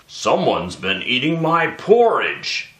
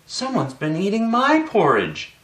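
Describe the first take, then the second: First: Daddy Bear's voice: deep and gruff. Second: Mommy Bear's voice: soft and low.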